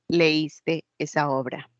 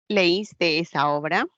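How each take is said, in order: First: The pitch falls at the end. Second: The pitch rises at the end. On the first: It makes a statement. "Ya está afirmando" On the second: It asks a question.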